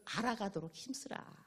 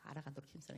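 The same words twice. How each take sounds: First: Said in the usual way. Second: Much softer echo of 알아가도록 힘쓰라. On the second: Acted. Preacher echoing a verse to the congregation, much softer. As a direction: repeat it softly, like an afterthought.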